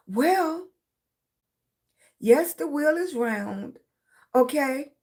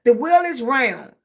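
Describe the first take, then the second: First: Slow, drawn-out agreement before objecting; mock concession. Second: Firm, slightly louder statement of fact; imitated insistent teacher. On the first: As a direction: concede it slowly, with a but coming. Her grudging reply to the teachers. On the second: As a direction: lay it down like a fed-up teacher. Teachers insisting, in acted quote.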